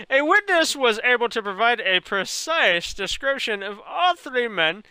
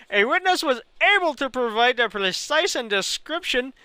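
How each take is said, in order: First: Careful corrected reading of "precise description" in a put-on Indian accent. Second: Mock Indian accent, stumbling over "precise and description"; Indian accent, misread. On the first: Streamer rereads the line correctly in a mock Indian accent. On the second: Streamer misreads the news line in a mock Indian accent. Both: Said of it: "talk this long with an Indian accent".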